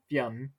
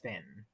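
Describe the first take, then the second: First: It is said the Irish way, like 'Fyun'. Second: It is said the English way, like 'Finn'. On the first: This is the Irish form of the name. "We pronounce it Fionn" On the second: This is the anglicized form of the name. "But in English, yeah, it's Finn"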